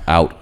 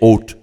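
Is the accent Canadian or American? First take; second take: American; Canadian. First: It is said in an American accent. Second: It is said in a Canadian accent.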